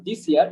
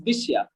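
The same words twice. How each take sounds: First: "this year" with a separate s, dis-ia; wrong pronunciation. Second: "this year" joined with sh, di-shia; blended pronunciation. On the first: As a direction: keep a plain s in "this year". ("this year"-এ আলাদা স ধ্বনি) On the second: ("this year"-কে জুড়ে দিশিয়া) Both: Shown as a demonstration. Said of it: "it's not this year".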